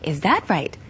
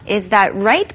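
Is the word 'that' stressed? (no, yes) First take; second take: yes; no. First: The word 'that' is clearly stressed. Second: The word 'that' is not stressed. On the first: The speaker calls it right. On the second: The speaker calls it wrong.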